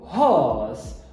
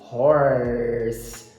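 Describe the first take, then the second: First: The r is dropped and the vowel lengthened. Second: The r is pronounced with a curled tongue. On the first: "Britânico"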